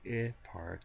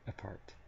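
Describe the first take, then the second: First: The first vowel is a full, long vowel. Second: The first vowel is a very short schwa. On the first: The speaker calls it wrong. "I'm not saying I part" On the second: The speaker calls it right. "I'm saying apart"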